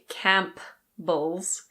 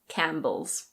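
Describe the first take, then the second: First: The P sound is pronounced. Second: The P sound is silent. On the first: The speaker calls it wrong. "We don't say Campbell's" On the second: The speaker calls it right. "the P is completely silent. We say Campbell's"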